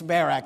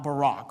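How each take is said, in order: First: The name is not said the president's way. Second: The name is said the president's way. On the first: The speaker calls it right. "it's Barak" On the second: The speaker calls it wrong. "not Barak. Okay, this isn't Obama"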